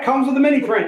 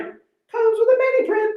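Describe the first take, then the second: First: Said in the usual way. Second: Repeated much higher and slow, teasing; playful sing-song. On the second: Acted. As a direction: sing it out high like a game-show host.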